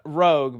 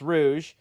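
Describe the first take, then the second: First: The name ends with a hard g sound. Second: The name ends with a soft zh sound. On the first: The speaker calls it wrong. "All my life I thought this was freaking Rogue" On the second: The speaker calls it right. "apparently it's pronounced Rouge"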